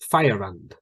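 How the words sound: Fire ends in a schwa, linked to and. "For British English, fire, uh, uh, schwa"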